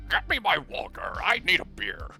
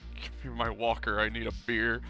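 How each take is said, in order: First: It is said in a put-on Antonish voice. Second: It is said in the speaker's normal voice.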